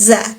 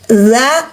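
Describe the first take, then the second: First: It starts with a plain 'z' sound. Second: It starts with a buzzing 'th' sound, as in 'this'. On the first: The speaker calls it wrong. "bukan za" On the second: The speaker calls it right. "Hati-hati huruf zal"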